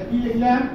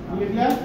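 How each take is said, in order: The two takes are said the same way.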